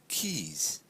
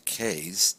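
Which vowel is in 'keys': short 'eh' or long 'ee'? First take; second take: long ee; short eh. First: The vowel is a long 'ee' sound. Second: The vowel is a short 'eh' sound. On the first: The speaker calls it right. "we say keys" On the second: The speaker calls it wrong. "we don't say K's"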